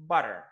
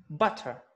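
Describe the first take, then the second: First: American "butter" with T softened to D; American accent. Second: "butter" with a clear British T; British accent. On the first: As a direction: say "butter" as "budder", American style. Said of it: "When Americans say that". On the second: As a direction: release the T fully in British "butter". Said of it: "That's British". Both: Shown as a demonstration.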